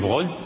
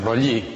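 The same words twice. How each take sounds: First: The name is said with French sounds. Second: The name is said with Italian sounds. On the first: The name is treated as French. The speaker calls it right. "hay que pronunciarlo a la francesa" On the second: The name is treated as Italian in origin. The speaker calls it wrong. "si fuera italiano sería Broglie"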